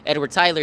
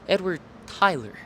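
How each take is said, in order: First: Tyler is said plainly, without extra emphasis. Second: Tyler is said with heavy, drawn-out emphasis. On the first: "instead of saying Edward Tyler" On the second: "he puts a huge emphasis on the word Tyler"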